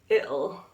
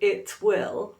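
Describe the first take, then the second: First: It is contracted with a glottal stop for T. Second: It is said as two full words. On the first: "with a glottalized T, which is very common in the U K" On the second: "Instead of it will"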